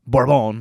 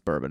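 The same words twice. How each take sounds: First: It is said with an attempted French pronunciation. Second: It is said with an ordinary English pronunciation. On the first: "I can't do a French accent, but Bourbon or whatever" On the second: "they didn't pronounce bourbon"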